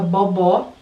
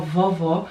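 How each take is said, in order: First: The word begins with a B sound. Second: The word begins with a V sound. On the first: A young child who cannot yet say V said it. The speaker calls it wrong. "Antes ela trocava tudo por B, então ela falava bobó" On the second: The child has now learned the V sound. The speaker calls it right. "agora ela fala vovó"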